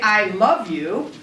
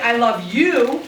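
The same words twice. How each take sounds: First: The stress falls on the word love. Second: The stress falls on the word you. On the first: I love you rather than hate you. "that means that I love you as opposed to hating you" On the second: It is you I love, not someone else. "it means I love you as opposed to loving somebody else"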